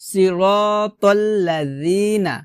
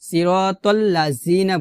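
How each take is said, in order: First: The consonant is a soft th sound. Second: The consonant is a buzzing z sound. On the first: The speaker calls it right. "জিহ্বার আগা উপরে দুই দাঁতের আগার সঙ্গে লাগিয়ে ... পাতলা করে" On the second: The speaker calls it wrong. "জিহ্বার আগে নিচে দাঁতের সঙ্গে লাগিয়ে উচ্চারণ করি ... এটা কিন্তু ভুল"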